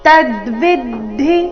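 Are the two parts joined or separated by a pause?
joined. The two parts are said joined without a break. "ಈಗ ಜೋಡಿಸಿ ಹೇಳಿದಾಗ"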